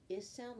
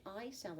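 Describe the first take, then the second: First: "is" is a short "ih", as in iguana; short I sound. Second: "I" said as "eye", as in ice; long I sound. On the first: Teacher giving I's first sound, short "ih". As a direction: say a lone "ih" for "is". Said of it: "The I makes the". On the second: Teacher giving I's second sound, long "eye". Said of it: "it makes the I sound". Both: Shown as a demonstration.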